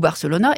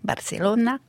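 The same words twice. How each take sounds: First: The name is said with a French pronunciation. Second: The name is said with a Spanish pronunciation. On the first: The speaker calls it wrong. "là, je vous les prononce à la française" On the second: The speaker calls it right. "Ça devrait être"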